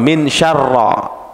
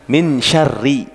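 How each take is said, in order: First: The word ends with an 'a' vowel. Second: The word ends with an 'i' vowel. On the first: The speaker calls it wrong. "itu salah" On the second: The speaker calls it right. "Yang benar min syarri"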